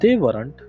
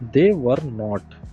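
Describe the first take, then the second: First: Were and not are joined into one word. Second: Were and not are said separately. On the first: The speaker calls it right. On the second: The speaker calls it wrong.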